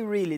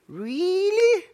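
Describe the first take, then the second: First: It is said flatly, without emphasis. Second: It is said with strong emphasis.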